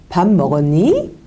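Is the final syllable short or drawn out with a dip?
drawn out. The ending is drawn out, dipping low then rising.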